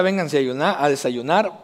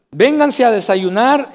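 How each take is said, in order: First: Said in the usual way. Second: Drawn-out call, "Vénganse a desayunar" slow and raised; mom calling to breakfast. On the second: Retold or imitated. Preacher imitating his mom calling the kids to breakfast, slow raised call. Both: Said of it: "mi mamá decía".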